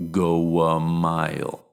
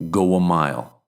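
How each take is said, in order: First: "Go a mile" slowed, "go" gliding into "a" with a W; slow, with a W glide. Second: Said in the usual way. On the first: Shown as a demonstration. Teacher slowing down to show the W link. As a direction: stretch it so the W joins "go" to "a". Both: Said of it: "acts like a consonant".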